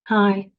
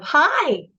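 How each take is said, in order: First: It is said with a nearly closed, muffled mouth. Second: It is said with a wide open, resonant mouth.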